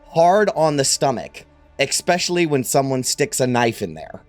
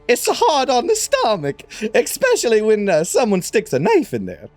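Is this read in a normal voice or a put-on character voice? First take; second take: normal; character voice. First: It is read in a plain, normal voice. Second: It is spoken in a put-on character voice.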